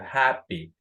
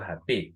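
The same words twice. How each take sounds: First: The stress is on the first syllable. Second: The stress is on the second syllable. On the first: The speaker calls it right. "digo happy" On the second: The speaker calls it wrong. "no digo happy"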